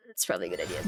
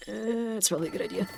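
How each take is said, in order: First: Deep joke voice. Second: Said in the usual way. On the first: Pretend. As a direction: drop way down low. Repeats line in a deep voice.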